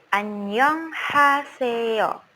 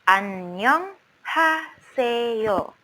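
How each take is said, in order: No difference in how they are said.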